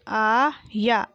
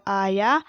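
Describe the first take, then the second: First: आया split into long aa and yaa; very slow आया, syllables held apart; spelled out. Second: Said in the usual way. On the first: Shown as a demonstration. Teacher sounding out आया for pupils, syllable by syllable. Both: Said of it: "मैंने इस तरीके से पढ़ा".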